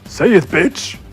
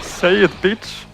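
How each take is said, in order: First: It is said in a deeper, manlier voice. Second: It is said in a less manly voice.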